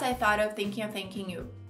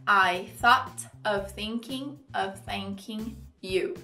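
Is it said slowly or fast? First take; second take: fast; slowly. First: It is said at a faster pace. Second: It is said at a slow, careful pace.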